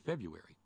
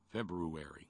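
First: The R after the B is dropped. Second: The R after the B is pronounced. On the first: This is how most people say it. "Most people just say February" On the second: This is a deliberate attempt to say every letter. "I try to pronounce it sometimes just for fun"

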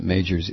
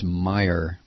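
First: The name is said ending in an s sound. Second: The name is said with no final s sound. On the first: The speaker calls it wrong. "I pronounce it Majors" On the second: The speaker calls it right. "It's Meijer"

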